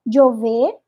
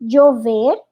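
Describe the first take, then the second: First: The ll sounds like a j or y. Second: The same.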